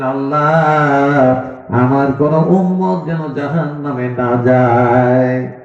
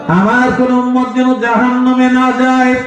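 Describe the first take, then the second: First: Slow, drawn-out imploring prayer; understated tearful plea. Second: High, ringing plea at preaching pitch; impassioned retold plea. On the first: Retold or imitated. Preacher voicing the Prophet praying in prostration, mildly tearful plea. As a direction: plead slowly, stretching the last word. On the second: Preacher repeating the Prophet's prayer, high impassioned plea. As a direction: cry it out high to the crowd. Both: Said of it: "সেজদায় পড়ে কাঁদবেন আর বলবেন".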